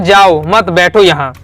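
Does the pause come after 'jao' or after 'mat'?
after mat. The pause comes after 'mat'.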